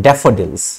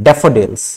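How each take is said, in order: The two takes are said the same way.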